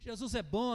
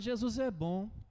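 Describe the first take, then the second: First: It is said in a joyful, lively tone. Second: It is said in a flat, discouraged tone. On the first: The speaker truly believes the message. The speaker calls it right. "quando você prega com alegria, fala assim" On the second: The speaker lacks conviction in the message. The speaker calls it wrong. "se você fala com desânimo"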